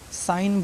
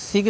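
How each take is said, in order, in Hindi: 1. इस शब्द में g साइलेंट है। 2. इस शब्द में g बोला जाता है। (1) "साइन बोलना है" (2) "सिग्न नहीं"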